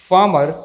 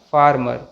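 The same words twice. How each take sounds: First: फार्मर with no r before m; silent r. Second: फार्मर with an audible r before m; sounded r. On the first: Teacher gives correct pronunciation, middle r silent. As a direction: say फार्मर as "faa-mar". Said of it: "सही pronunciation". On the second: Teacher warns against this version, r sounded. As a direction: let the middle r be heard in फार्मर. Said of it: "ना कि". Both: Shown as a demonstration.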